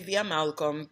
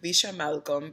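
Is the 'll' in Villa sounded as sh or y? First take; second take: y; sh. First: The ll is sounded like an English y. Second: The ll is sounded like an English sh. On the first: This is how a non-Argentine speaker says it. "I say Via Malcolm because that's what it is" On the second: This is how someone who learned Spanish in Argentina says it. "And you're saying Villa Malcolm"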